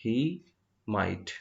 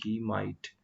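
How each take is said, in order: First: He and might said apart with a pause between; word by word. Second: Says he might slowly and evenly; a teacher giving the answer at a slow pace; slow model answer. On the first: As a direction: split he and might into two separate beats. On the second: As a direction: lay out he might calmly for the class. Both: Shown as a demonstration. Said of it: "तो यहाँ पे हम करेंगे वो शायद ही".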